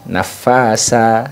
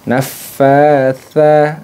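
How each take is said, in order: First: The last consonant is a hissing s sound. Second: The last consonant is a soft th sound. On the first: The speaker calls it wrong. "kekeliruan yang sering terjadi biasanya pakai sin" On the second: The speaker calls it right. "ujung lidahnya itu nempel ke ujung gigi seri atas"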